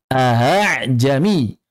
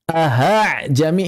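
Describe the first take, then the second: First: The second glottal stop is softened, not an h. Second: The second glottal stop becomes an h sound. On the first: The speaker calls it right. "benar-benar dikeluarkan hamzah baru dari makhrajnya" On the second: The speaker calls it wrong. "Ada sebagian orang mengubah menjadi ha"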